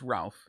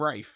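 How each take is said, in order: First: The name is said as Ralph, with an L. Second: The name is said as Rafe, without an L. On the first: This is how the name is spelt. The speaker calls it right. "it's evidently spelt Ralph, so it's Ralph" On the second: This is how some other people say the name. The speaker calls it wrong. "they call him Rafe"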